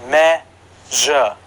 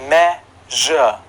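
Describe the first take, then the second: The two takes are said the same way.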